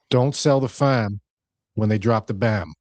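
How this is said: It is said in a Boston accent.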